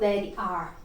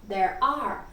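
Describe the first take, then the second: First: The two words are said separately, without linking. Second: The two words run together in one linked sound. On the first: The speaker calls it wrong. "eu não falo" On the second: The speaker calls it right. "faz um link, um link sound"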